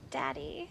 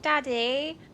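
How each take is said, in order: First: It is said flirtatiously, suggestively. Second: It is said innocently, like a child.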